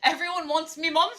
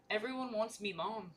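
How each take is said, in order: First: High, loud cartoon crab captain; Mister Krabs voice. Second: Said in the usual way. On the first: Reading a line aloud in a hammed-up Mister Krabs voice. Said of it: "that was Mister Krabs". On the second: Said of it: "I cannot do an accent".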